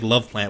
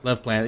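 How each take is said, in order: First: The first word sounds like the word 'love'. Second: The first word does not sound like 'love'. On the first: The speaker calls it wrong. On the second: The speaker calls it right.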